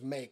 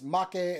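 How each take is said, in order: First: The name is said like the English word. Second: The name is said with Japanese vowels. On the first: "we're stupid gaijin, so we say it like that" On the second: "pronounced differently from Japanese"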